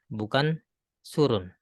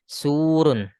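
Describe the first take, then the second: First: The first vowel is cut short. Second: The first vowel is held long. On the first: The speaker calls it wrong. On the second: The speaker calls it right. "Ini mad juga panjang, tapi panjang gara-gara waw"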